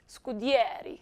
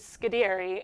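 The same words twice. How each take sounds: First: The name is said the Italian way. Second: The name is said the American way.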